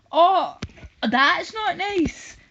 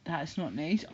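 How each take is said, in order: First: Loud, high, drawn-out mock protest; hammed-up offended wail; mock outrage. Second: Said in the usual way. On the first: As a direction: throw the complaint back in an exaggerated high cry. Mockingly repeats the chatter's complaint.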